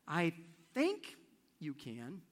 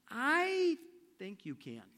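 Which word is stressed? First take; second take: think; I. First: The stress falls on the word "think". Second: The stress falls on the word "I". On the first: She is unsure but trying to convince herself. "If the emphasis is on the word "think,"" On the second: No one else believes in you, but I do. "And the emphasis is on the "I.""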